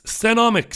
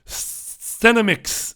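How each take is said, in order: First: Stenomics with an open middle O, sten-OM-ix; high-pitched Stenomics with a full "ah" in the middle; second pronunciation. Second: Stenomics drawn out with the middle vowel reduced, STEN-uh-mix; high, slow Stenomics with a neutral middle vowel; first pronunciation. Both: Shown as a demonstration. Tries two pronunciations of a name.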